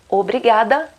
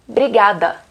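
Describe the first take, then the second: First: The word starts with an 'o' vowel sound. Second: The word starts directly with the 'br' sound. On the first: "Em vez de falar obrigada" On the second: "sem a primeira letra, sem o O"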